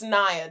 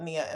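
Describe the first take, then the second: First: The name is said as Naya. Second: The name is said as Nia. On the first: The speaker calls it right. "it's Naya" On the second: The speaker calls it wrong. "I've been called Nia"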